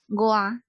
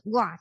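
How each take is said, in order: First: The word is said with a non-falling tone. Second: The word is said with a falling tone. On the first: The word is joined to a following word. "哇的音就会变成哇，因为台语有变调的关系" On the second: The word stands alone. "听起来是中文的4 声，所以它是台语的2 声"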